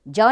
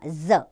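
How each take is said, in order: First: The consonant is a 'j' sound. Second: The consonant is a 'z' sound. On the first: The speaker calls it wrong. "जौ नहीं बोला" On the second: The speaker calls it right. "ज नुक्ता लगा है"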